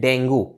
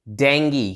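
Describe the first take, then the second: First: The word ends with an 'oo' sound. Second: The word ends with an 'ee' sound. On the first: The speaker calls it wrong. "इसकी correct pronunciation डेंगू ऐसे नहीं है" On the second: The speaker calls it right. "इसकी जो correct pronunciation है वो है डेंगी"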